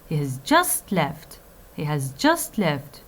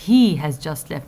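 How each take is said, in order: First: Slow down and hit "just", falling on "left"; stress on JUST. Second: "he" stands out, "has just left" falls away; stress on HE. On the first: Lecturer showing that the time matters, stress on JUST. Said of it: "stressing upon the word just". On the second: Lecturer explaining the focus on the person, stress on HE. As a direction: put the weight on "he". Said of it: "focus upon the person". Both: Shown as a demonstration.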